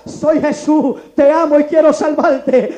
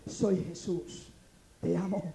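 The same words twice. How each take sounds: First: Loud, slow proclamation; stronger, louder voice. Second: Low, slow and hushed; gentle, quiet voice of God; very soft voice. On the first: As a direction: voice of God in full preaching force. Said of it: "por segunda vez viene más fuerte ahora". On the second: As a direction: speak it softly and low, unhurried. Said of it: "aquella voz tan suave que me dice". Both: Acted.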